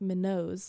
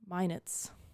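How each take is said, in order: First: The second syllable rhymes with 'not'. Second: The second syllable rhymes with 'net'. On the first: It is read the way it is spelled. The speaker calls it wrong. "I would say Minot because it's M I N O T S" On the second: It is the name as people actually say it. The speaker calls it right. "but it's um, Minet's"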